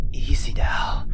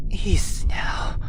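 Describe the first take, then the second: No difference in how they are said.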